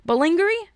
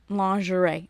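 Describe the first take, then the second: First: "lingerie" said lin-ger-ee, high and questioning; plain English "lingerie" with a rising question; anglicized lingerie. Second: "Lingerie" said French-style, lan-zhuh-ray; mock-fancy French "Lingerie". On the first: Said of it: "don't have to say it like that". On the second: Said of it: "say it like it's French". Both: Shown as a demonstration.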